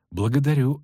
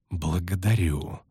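First: "Благодарю" at normal pace; lightly ironic, moving straight on; brisker thanks. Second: Mocking thanks. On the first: Acted. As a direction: say "Благодарю" without drawing it out. Thanks repeated, brisker and higher. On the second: Mocking thanks, with sneering smile.

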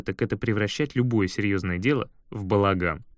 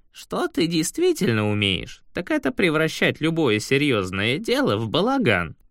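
First: Said in the usual way. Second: Said aloud by Shurf. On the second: Acted. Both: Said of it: "вслух сказал Шурф".

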